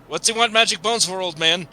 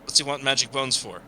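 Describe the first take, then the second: First: Demanding shout. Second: Said in the usual way. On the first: Acted. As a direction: raise the voice and push. Repeats the question pushing harder.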